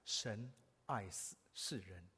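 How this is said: The stress falls on the word 神.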